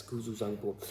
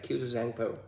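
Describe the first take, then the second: First: "Kuzu Zangpo" in plain Bhutanese pronunciation; plain native pronunciation. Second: "Kuzu Zangpo" with an imitated English accent; English speaker's accent. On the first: Shown as a demonstration. Contrasting with foreigners' version, plain native pronunciation. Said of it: "in a plain language". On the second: Imitating how foreigners pronounce the greeting, English accent. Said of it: "they pronounce it like".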